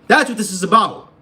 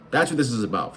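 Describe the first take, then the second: First: Loud, high-pitched shouted repeat; emphatic shout. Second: Said in the usual way. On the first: Real, not acted. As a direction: yell it to drive the point home. Repeats the same line as a shout.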